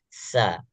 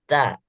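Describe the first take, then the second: First: The consonant flows out as a hiss first. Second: The consonant is a sharp stop like t. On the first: The speaker calls it right. "Jadi duluan keluar desisnya" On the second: The speaker calls it wrong. "Ada yang bacanya ta, ta, ta. Enggak"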